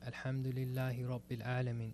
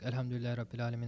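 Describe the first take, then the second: First: It is recited slowly and deliberately. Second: It is recited quickly without stopping.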